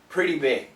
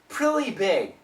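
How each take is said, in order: First: The middle consonant is a soft D sound. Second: The middle consonant is an L sound. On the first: The speaker calls it right. "It's a D" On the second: The speaker calls it wrong. "If it's an L"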